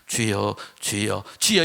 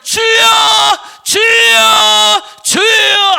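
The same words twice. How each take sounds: First: It is said quietly and weakly. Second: It is shouted loudly and high.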